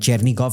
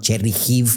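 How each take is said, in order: First: The middle consonant is a hard g sound. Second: The middle consonant is a breathy h sound. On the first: This is the speaker's habitual, non-Ukrainian form. "I'm like Chernigov" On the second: This is the Ukrainian form the speaker avoids. "not Chernihiv"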